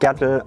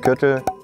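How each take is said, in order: First: The vowel is an unrounded open sound. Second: The vowel is a rounded ü sound. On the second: "aus dem Gürtel"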